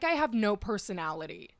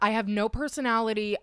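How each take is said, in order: First: It is said in her normal voice. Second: It is said in a high Mickey Mouse voice.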